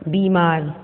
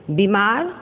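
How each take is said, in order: First: Said in the usual way. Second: बीमार with a short i, "bimaar", rising; mispronounced बीमार. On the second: Shown as a demonstration. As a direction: cut the first vowel of बीमार short. (बीमार को छोटी इ से "बिमार" बोलना) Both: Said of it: "अशुद्ध और शुद्ध".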